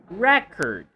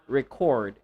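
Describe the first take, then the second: First: The stress is on the first syllable. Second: The stress is on the second syllable. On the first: The speaker calls it right. "If you're talking about the noun" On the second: The speaker calls it wrong.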